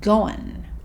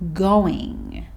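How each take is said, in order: First: The ending is reduced to a short n. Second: The ending is a full ing sound.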